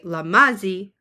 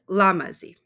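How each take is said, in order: First: The stress is on a later syllable. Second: The stress is on the first syllable. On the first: The speaker calls it wrong. "I didn't say lamazi" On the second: The speaker calls it right. "I said lamazi"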